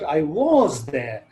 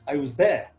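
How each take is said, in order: First: The word was is strongly stressed. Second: The word was is weak and unstressed. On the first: It contradicts what someone else said. "I'll emphasize the word was" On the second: It is a plain statement. "In usual context, was is not pronounced as was, it is pronounced as was"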